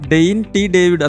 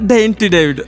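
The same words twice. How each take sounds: First: The name is said plainly, word by word. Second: The name is said with a stylish flourish.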